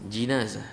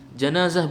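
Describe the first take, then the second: First: The first vowel is an i sound. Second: The first vowel is an a sound. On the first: The speaker calls it right. "yang lebih fasih adalah dengan kasrah jinazah" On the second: The speaker calls it wrong. "Janazah betul"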